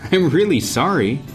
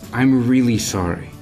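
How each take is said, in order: First: It is said in a sarcastic, mocking tone. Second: It is said in a sincere, earnest tone. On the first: The apology is not really meant. The speaker calls it wrong. "でももし君が皮肉な口調で本当にごめんと言っても" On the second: The apology is genuinely meant. The speaker calls it right. "もし改まった口調で本当にごめんなさいと言ったら"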